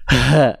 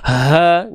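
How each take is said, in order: First: The h is pushed hard and overdone from the chest. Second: The h is light and plain from the throat. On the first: The speaker calls it wrong. "Nggak perlu ha, ha, capek dan nantinya berlebihan karena memang bukan dilafalkan dari dada" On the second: The speaker calls it right. "ya nggak usah berlebihan. Ha, gitu ya"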